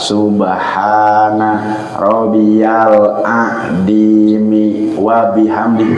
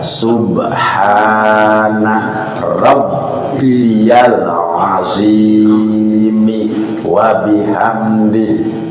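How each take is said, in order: First: The word Azimi is said with a 'd' sound. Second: The word Azimi is said with a 'z' sound. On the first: The speaker calls it wrong. "Itu salah Pak" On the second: The speaker calls it right. "Yang benar adalah"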